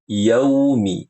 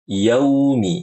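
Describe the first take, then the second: No difference in how they are said.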